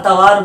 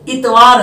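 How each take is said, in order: First: The word begins with an 'a' vowel. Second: The word begins with an 'i' vowel. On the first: The speaker calls it wrong. "लेकिन लोग अतवार या अतवार बोलते हैं" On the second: The speaker calls it right. "ऐसे ही लफ्ज़ इतवार है"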